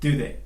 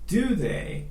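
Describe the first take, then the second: First: The words are reduced and run together. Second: Both words are said fully and clearly.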